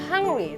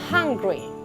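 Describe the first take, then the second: First: It is pronounced with Indonesian-style sounds. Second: It is pronounced with English-style sounds. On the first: The speaker calls it wrong. "Sebenarnya itu bukan hungry" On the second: The speaker calls it right. "tetapi hungry"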